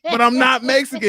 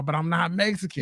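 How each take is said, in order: First: Loud, high mock protest; raised-voice comic objection; retold protest. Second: Said in the usual way. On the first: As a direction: protest loudly over the pushy stranger. Retold protest to insistent stranger.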